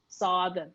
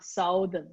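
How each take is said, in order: First: "southern" said SUH-thern, short u like "sun"; first syllable of "southern" rhymes with "mother", not "mouth"; correct southern. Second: "southern" said SOW-thern, like "south", slowly; wrong southern. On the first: Learner shows coach the right "southern", SUH-thern. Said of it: "southern, not southern". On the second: Learner slowly imitates her old wrong "southern", SOW-thern. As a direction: stretch "southern" with the "ow" of "mouth". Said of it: "not southern". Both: Shown as a demonstration.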